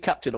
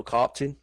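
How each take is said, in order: First: Said in the usual way. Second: "captain" with a mimicked Scottish vowel; "captain" in a mock-Scottish pronunciation. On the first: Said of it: "Is it captain or captain?". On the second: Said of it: "It's Scottish, that, didn't it?".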